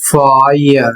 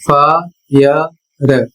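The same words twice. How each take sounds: First: फायर said the correct way, short and falling; correct pronunciation. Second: फायर said the wrong way, drawn out very slowly; common wrong pronunciation. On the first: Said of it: "इसका सही उच्चारण होता है". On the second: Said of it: "लोग पढ़ते हैं फायर ... लेकिन यह सही नहीं है". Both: Shown as a demonstration.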